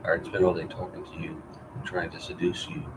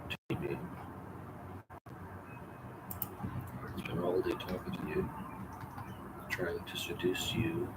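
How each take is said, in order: First: Said in the usual way. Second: Slow, breathy whisper, much softer. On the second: Shown as a demonstration. [name] whispering to Grace, trying to seduce her, slow whisper. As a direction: breathe each word out slowly. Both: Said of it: "whispered retake of same line".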